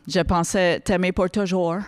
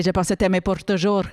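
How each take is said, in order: First: Slow French with an English accent; English speaker struggling through French verse. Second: Trilled R in "pour" and "toujours"; mock poetic reading, "toujours" ending on a rolled R. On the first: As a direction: recite it slowly in a mock English accent. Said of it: "avec un accent anglais". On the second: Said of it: "si tu le fais en roulant des airs". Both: Shown as a demonstration.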